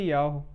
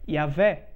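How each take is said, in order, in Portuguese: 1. A consoante do meio tem som de W. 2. A consoante do meio tem som de V. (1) "O nome de Deus jamais poderia ser Yahweh" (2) "a letra Vav tem o som de V. O verdadeiro nome de Deus é Yahvé"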